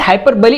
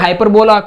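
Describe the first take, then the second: First: The word ends with a 'bee' sound. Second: The word ends with a 'bola' sound. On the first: The speaker calls it right. "Is the correct pronunciation" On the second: The speaker calls it wrong. "जैसे कोई बोलेगा हाइपरबोला"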